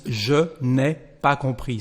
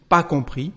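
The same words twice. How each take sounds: First: Je n'ai pas compris with every word said; full proper French. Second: Pas compris, quick and casual, no subject; spoken French clipped form; casual French short form. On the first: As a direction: say the full formal sentence carefully. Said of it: "instead of the proper sentence". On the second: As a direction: toss off pas compris informally. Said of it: "you can't just say this expression". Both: Shown as a demonstration.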